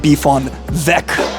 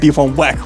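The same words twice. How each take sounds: First: Weck is said with a German pronunciation. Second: Weck is said with an English pronunciation. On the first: The speaker calls it right. "if it's German, indeed ... it should be a Beef on Weck" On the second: The speaker calls it wrong. "It shouldn't be a Beef on Weck"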